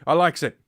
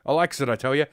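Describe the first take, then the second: First: Higher, louder, bellowed likes; louder yokel voice. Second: Put-on folksy old codger; yokel voice. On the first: Acted. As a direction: shout it like a rowdy old codger. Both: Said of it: "I like drinking and smoking".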